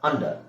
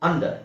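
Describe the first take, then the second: Both takes have the same delivery.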